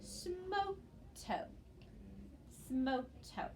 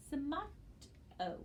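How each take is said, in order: First: "smoto" with both o long, like smoke and toe. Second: "Smoto" with a short first o, like smot-oh. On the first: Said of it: "we would now read that word as smoto". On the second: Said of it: "if we divide this word after". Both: Shown as a demonstration.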